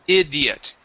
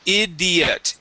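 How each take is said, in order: No difference in how they are said.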